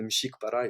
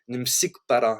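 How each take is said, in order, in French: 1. Le mot se prononce avec un son 'sh'. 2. Le mot se prononce avec un son 's'. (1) "à la place de dire che" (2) "ils disent ce"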